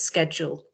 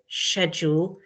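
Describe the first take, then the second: First: It is said with an American pronunciation. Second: It is said with a British pronunciation. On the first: "the American pronunciation is schedule" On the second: "which is very British English"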